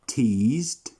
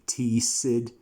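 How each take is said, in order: First: The ending is a plain D sound. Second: The ending is an extra 'id' syllable. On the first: The speaker calls it right. "The E D sound is going to sound as D" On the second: The speaker calls it wrong. "never are you going to say teased"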